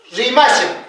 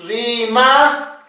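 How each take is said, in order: First: Said in the usual way. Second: "Rimashan" stretched out, paused before the last syllable; slow syllable demo. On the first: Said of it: "el ejemplito de acá". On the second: Shown as a demonstration. Teacher shows students the example with cha, slow syllable demo. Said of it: "Así".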